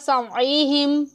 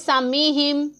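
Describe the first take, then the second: First: The throaty 'ain' sound is clearly heard. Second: The throaty 'ain' sound is missing; vowel lengthened. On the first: The speaker calls it right. "आइन की आवाज़ वाज़े तौर पे सुनाई देनी चाहिए" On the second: The speaker calls it wrong. "कुछ लोग यहाँ पर पढ़ लेते हैं सामीहिम, तो ऐसे नहीं पढ़ना"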